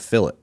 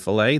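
First: It is said in the Australian way. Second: It is said in a non-Australian way. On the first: The speaker calls it wrong. "they'd say a fillet. And that just felt wrong too" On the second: The speaker calls it right. "instead of saying like a filet mignon"

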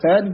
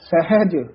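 First: The h sound in the middle is faint. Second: The h sound in the middle is clear. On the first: The speaker calls it wrong. "ਹਾਹਾ ਜਿਹੜਾ ਹੈ ਉਹ ਫਿੱਕਾ ਜਿਹਾ ਪੈ ਜਾਂਦਾ ਹੈ" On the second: The speaker calls it right. "ਉਚਾਰਨ ਸਹੀ ਕਰਨਾ"

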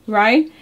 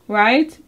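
Both takes have the same delivery.

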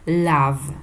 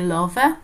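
First: The word has its standard English pronunciation. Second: The word is read as it is spelled. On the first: The speaker calls it right. "tylko love" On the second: The speaker calls it wrong. "nie love, tak jak czasami niektórzy czytają"

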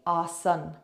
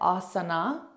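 First: The word ends without a final vowel sound. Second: The word ends with a final vowel sound. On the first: "will drop that A" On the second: "you've got it written"

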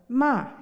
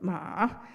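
First: The word is said in the fourth tone. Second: The word is said in the third tone. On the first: It is a reproach. "in the fourth tone" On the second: It means horse. "In the third tone"

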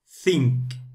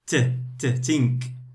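First: It starts with a breathy 'th' sound. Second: It starts with a hard 't' sound. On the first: The speaker calls it right. "put it out, say tha, tha, tha, think" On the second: The speaker calls it wrong. "Some of the students, they say think. No"

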